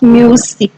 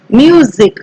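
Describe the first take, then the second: First: The middle consonant is a hissing s sound. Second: The middle consonant is a buzzing z sound. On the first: The speaker calls it wrong. "not music" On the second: The speaker calls it right. "Okay, music"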